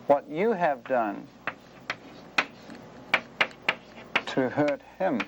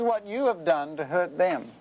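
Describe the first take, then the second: First: Slow, with a long pause before "to hurt him"; measured, weighty build to HIM; stress on HIM. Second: THEM set apart at the end; what you did to THEM, stated firmly; stress on THEM. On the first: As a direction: let HIM land alone after a pause. Contrasts hurting God with hurting them. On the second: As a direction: point to THEM as the ones hurt. Contrasts hurting them with hurting God. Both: Real, not acted.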